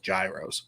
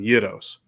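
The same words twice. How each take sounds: First: The word is given its American pronunciation. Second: The word is given its Greek pronunciation. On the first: This is how people in America usually say it. "if you're in America, typically they're pronounced gyros" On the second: This is how Greek speakers say it. "if you're speaking Greek, you pronounce them gyros"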